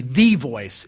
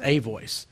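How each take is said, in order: First: "the voice" with the stressed; wrong version, stressing "the". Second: "a voice" with "a" stressed and said as "ay"; corrected version, stressing "a". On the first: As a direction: lean on the word "the" as the wrong reading. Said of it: "so it shouldn't be". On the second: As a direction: land on "a" as the right reading. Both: Shown as a demonstration.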